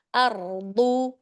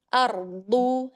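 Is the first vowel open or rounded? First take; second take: open; open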